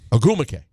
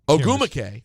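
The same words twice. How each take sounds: First: The stress is on the second syllable. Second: The stress is on the third syllable. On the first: "Ogumake means you're putting the emphasis on the second syllable" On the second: "In both cases, I'm going to the third syllable"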